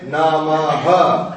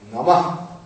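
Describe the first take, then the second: First: The word ends with a full extra syllable. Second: The word ends with a breathed-out release. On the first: The speaker calls it wrong. "Do not say Namaha. That is wrong" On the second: The speaker calls it right. "Visarga means to breathe out. You must breathe out"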